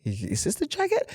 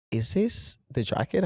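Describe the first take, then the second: First: Squeaky, much higher mock of the client's question. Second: Said in the usual way. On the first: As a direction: ham up his worried question way up high. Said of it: "He's like, he's like". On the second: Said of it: "He goes".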